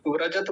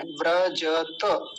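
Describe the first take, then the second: First: व्रजत said as "vrajat"; wrong clipped ending. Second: Slow "vra-ja-ta" for व्रजत; careful व्रजत in three syllables; all syllables full. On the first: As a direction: rush व्रजत and drop its final a. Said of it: "बोल के निकल जाते हैं". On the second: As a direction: sound every vowel of व्रजत, final a included. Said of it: "ऐसा बोलना है". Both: Shown as a demonstration.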